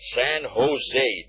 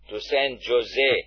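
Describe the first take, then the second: First: Jose begins with an H sound. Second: Jose begins with a J sound. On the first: The speaker calls it right. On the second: The speaker calls it wrong.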